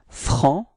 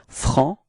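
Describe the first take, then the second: No difference in how they are said.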